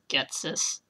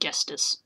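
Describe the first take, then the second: First: The middle has a 'ts' sound. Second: The middle has an 'st' sound. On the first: The speaker calls it right. "it's spelled an entirely different way than I used to pronounce it" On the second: The speaker calls it wrong. "I normally said Gestis"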